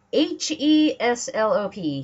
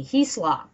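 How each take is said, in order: First: "H E S L O P" spelled letter by letter, slowly. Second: "Heslop" said as one word, HES-lop; just say the name "Heslop" whole. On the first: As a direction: read each letter of "H E S L O P" separately. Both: Shown as a demonstration.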